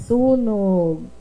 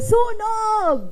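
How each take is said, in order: First: It is said flatly, without exclamation. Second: It is said as an urgent exclamation.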